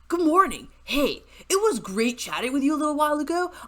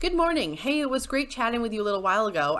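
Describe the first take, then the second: First: It is read in a put-on character voice. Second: It is read in a natural, ordinary voice. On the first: "maybe I should have read this in the Brobot voice" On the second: "I'm not going to read this in the Hunbot voice"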